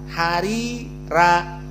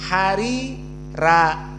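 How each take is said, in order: No difference in how they are said.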